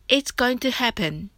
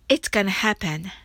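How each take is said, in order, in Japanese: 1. 'going to' は省略せずに言います。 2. 'going to' は 'gonna' に短くなります。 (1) "本来はIt's going to happen ですが" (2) "アメリカ人の発音で練習してみましょう"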